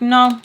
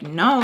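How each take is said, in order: First: Loud, higher-pitched retold no; firm refusal. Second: Said in the usual way. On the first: Refusing his version in the argument, loud and firm. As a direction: shoot it back louder and higher.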